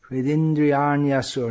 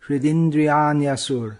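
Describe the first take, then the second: Both takes have the same delivery.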